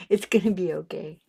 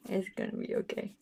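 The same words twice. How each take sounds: First: Said in the usual way. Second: Soft reassurance. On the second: Real, not acted.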